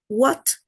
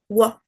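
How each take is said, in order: First: The final t is clearly released. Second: The final t is replaced by a glottal stop.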